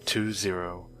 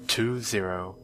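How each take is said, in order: Both takes have the same delivery.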